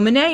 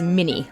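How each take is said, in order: First: It is said with a French-style ending. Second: It sounds like the name Minnie, Americanized. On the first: "the guy who invented it was French, so Minet is probably more correct" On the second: "Most Americans pronounce this round as mini, like the mouse"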